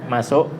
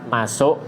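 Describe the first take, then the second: Both takes have the same delivery.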